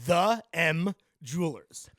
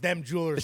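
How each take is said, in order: First: It is said as 'the' plus the letter M. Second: It is said as the single word 'them'. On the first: The speaker calls it right. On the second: The speaker calls it wrong.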